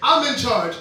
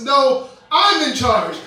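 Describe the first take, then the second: First: It is said at normal volume. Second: It is said in a louder voice.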